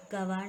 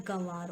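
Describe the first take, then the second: First: गंवार without the nasal, gavaar; wrong pronunciation. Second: गंवार with nasal vowel, ganvaar; correct pronunciation. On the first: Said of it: "नहीं होता". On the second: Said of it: "होता है". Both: Shown as a demonstration.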